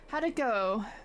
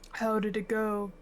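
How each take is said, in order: First: It is said in a higher voice. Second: It is said in a lower voice.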